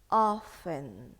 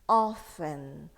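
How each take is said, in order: First: The T sound in the middle is silent. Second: The same.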